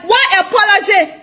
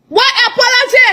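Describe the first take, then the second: First: Scornful question. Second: What apology? thrown up high in disbelief; outraged rhetorical question; incredulous. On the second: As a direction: raise the pitch on apology, scoffing. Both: Real, not acted. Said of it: "repeated scornful question".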